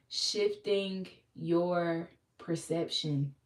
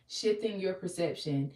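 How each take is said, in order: First: Very slow, every word stretched out; drawn-out preacher repeat; slow emphasis. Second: Said in the usual way. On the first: Acted. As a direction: let each word sink in slowly. Repeats phrase slowly for weight.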